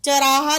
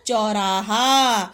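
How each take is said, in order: First: चौराहा mispronounced as "cha-raa-haa"; quick "cha" at the start of चौराहा; misspelt word. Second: चौराहा slow, with a long औ; चौराहा stretched as "chau-raa-haa"; corrected word. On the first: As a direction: shorten चौराहा's औ to a short "a". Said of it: "नहीं होता". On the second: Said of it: "क्या होता है". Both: Shown as a demonstration.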